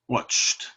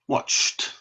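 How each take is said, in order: First: The ending is said as a short t. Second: The same.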